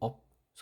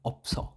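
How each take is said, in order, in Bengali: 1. এটি একটি বিরতি নিয়ে দুই অংশে বলা হয়। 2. এটি দ্রুত একটি জোড়া এককরূপে বলা হয়। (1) "এইভাবে না" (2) "স্পিড একটু তাড়াতাড়ি হবে"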